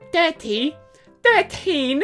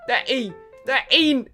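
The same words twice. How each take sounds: First: It is said in a posh British accent. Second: It is said in an Australian accent.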